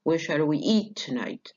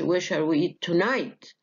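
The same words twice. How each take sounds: First: The strongest stress falls on eat. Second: The strongest stress falls on tonight. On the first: It is an ordinary neutral question. The speaker calls it right. "عادي سؤال عادي ... جت على eat" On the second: Tonight is contrasted with another time. The speaker calls it wrong. "ما ما اقولش ... contrastive stress"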